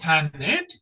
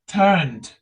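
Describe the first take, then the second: First: The ending is said as an extra syllable. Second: The ending is just a d sound. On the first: The speaker calls it wrong. "we never pronounce ten it" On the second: The speaker calls it right. "only turn and dead sound. E sound is silent here"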